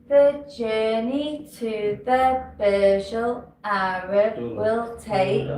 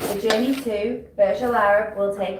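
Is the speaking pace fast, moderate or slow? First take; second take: slow; moderate. First: It is spoken very slowly. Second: It is spoken at a moderate pace. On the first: The listener has arrived before it ends. The speaker calls it wrong. "it's too slow" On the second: The listener understands and it sounds confident. The speaker calls it right. "It is a good speed"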